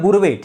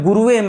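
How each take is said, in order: First: The word has a short a vowel after gur. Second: The word has a full u vowel after gur. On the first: The speaker calls it right. "गुरवे नमः कहते हैं ना" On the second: The speaker calls it wrong. "गुरुवे मत करिएगा"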